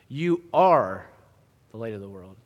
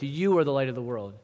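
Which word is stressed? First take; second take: are; you. First: The stress is on the word are. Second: The stress is on the word you. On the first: Being the light is a present fact, not an option. "I want to emphasize a second word here" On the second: It is you, and no one else, who is the light. "I previously emphasized you"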